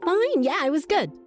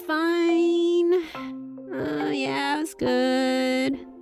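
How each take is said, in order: First: The voice sounds bright and cheerful. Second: The voice sounds low and sad. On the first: The day went well. "bit of cheer in her voice" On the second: The day did not really go well. "with a bit of sadness in her voice"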